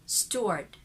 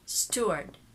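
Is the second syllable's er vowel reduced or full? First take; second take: reduced; reduced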